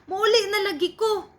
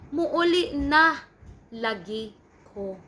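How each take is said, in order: First: The tone is sarcastic and irritated. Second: The tone is calm and reassuring. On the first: The speaker is annoyed by the question. "in a sarcastic manner, like they are already irritated" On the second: The speaker promises sincerely to come home. "you want to reassure your mom that you are really going home now"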